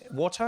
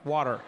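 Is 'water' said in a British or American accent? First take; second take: British; American. First: It is said in a British-style accent. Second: It is said in an American accent.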